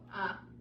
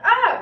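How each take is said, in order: First: It is said quietly with little energy. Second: It is said loudly with lots of energy.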